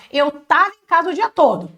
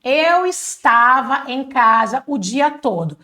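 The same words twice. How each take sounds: First: "estava" cut short to "tava", run on quickly; relaxed contracted "tava", words linked together; casual spoken Portuguese. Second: Slow, fully spelled-out "estava"; deliberate teaching pace with every syllable of "estava"; long careful form. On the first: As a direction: say "Eu tava" as in everyday speech. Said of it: "mas você vai falar assim em português". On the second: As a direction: draw out "Eu estava em casa" word by word. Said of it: "falando de uma forma mais comprida". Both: Shown as a demonstration.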